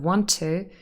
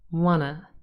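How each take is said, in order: First: Both words are said fully with the t sounds. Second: The words merge into one reduced form, no t. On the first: "instead of want to" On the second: "you will hear people say wanna"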